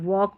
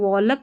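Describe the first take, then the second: First: No l sound is heard before the k. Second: An l sound is heard before the k. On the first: The speaker calls it right. "वॉक पढ़ते हैं" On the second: The speaker calls it wrong. "इसको वॉलक नहीं पढ़ते"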